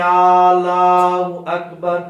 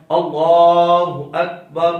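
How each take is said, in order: First: اللہ اکبر drawn out very slowly and much louder, called out; mukabbir's wrong takbir. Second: اللہ with only the lam long, slow and clear; correct takbir. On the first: Teacher imitating a mukabbir who stretches the takbir wrongly. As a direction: call it out long like a careless mukabbir. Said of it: "ایسے کہہ دیتے ہیں". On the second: Teacher giving the right takbir against the mukabbir's error. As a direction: hold just the lam of اللہ. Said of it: "اس کا درست تلفظ ہے". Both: Shown as a demonstration.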